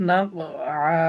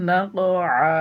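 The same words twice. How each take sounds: Both takes have the same delivery.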